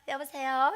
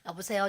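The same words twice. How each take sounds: First: The voice is clear, bright and awake. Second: The voice is low, husky and hoarse. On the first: The speaker seems to have been awake already. The speaker calls it right. "안 잔 것처럼 안 잔 것처럼" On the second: The speaker has just woken up. The speaker calls it wrong. "목이 가라앉아 있어요"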